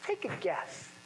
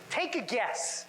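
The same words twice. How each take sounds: First: Quiet, softer "Take a guess" with a smile in it; softly smiling "Take a guess"; smiling through a mask. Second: Said in the usual way. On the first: Shown as a demonstration. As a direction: let the grin carry "Take a guess" behind a mask. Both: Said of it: "can you tell if I'm smiling or not".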